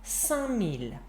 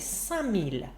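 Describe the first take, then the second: No difference in how they are said.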